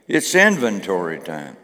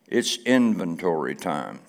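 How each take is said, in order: First: It is said loudly, with gusto. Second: It is said calmly, at normal energy.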